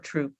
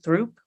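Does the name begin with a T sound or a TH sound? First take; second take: T; TH. First: The name begins with a plain t sound. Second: The name begins with a th sound. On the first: "Troop is how you pronounce it" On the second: "Is it Throop"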